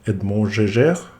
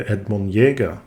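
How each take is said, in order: First: The name is said with non-German pronunciation. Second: The name is said with German pronunciation.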